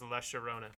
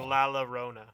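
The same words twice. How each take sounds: First: The double L is said as a sh sound. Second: The double L is said as an l sound. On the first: "another valid pronunciation of the double L is, like, a sh sound" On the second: "It looks like La Llorona"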